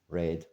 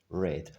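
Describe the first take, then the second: Both takes have the same delivery.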